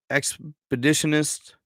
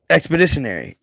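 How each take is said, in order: First: Expeditionist said with -ist ending, then dropped; stumbling on Expeditionist before fixing it; wrong word ending. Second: Expeditionary said with full -ary ending; the fixed word Expeditionary, ending -ary; corrected word. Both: Real, not acted.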